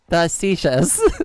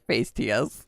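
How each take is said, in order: First: The word is said with its standard pronunciation. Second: The word is said as it looks spelled. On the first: The speaker calls it right. "That is the right way to say that word" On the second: The speaker calls it wrong. "I did used to call it Facetius before"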